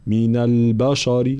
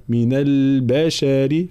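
First: من البشر with heavy thick letters; wrong heavy letters. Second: من البشر slower, every letter thin; correct light letters. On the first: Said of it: "فلا نقول من البشر". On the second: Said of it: "لا، من البشر". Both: Shown as a demonstration.

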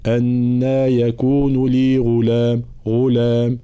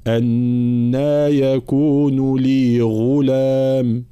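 First: Chanted "غلام" with a weak, indistinct ghayn; unclear ghayn. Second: Slow chant with a clear, voiced ghayn in "غلام"; fully voiced ghayn. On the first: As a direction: let the ghayn in "غلام" blur toward khaa. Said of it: "هنا الغين غير واضح". (غين غير واضحة في "غلام") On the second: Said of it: "الغين لولا أعطيها حقها من الجهر". (غين مجهورة واضحة في "غلام") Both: Shown as a demonstration.

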